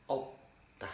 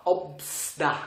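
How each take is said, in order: First: "obda" with a stopped b, no S; silent S. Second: "obsda" with the S sounded; wrong pronunciation with S. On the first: Teacher showing the correct form, "obda" with silent S. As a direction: stop on the b of "obda", then a soft da. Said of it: "vous prononcez le premier consonne". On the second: Teacher showing what not to say, "obsda" with an audible S. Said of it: "vous prononcez pas obsda". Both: Shown as a demonstration.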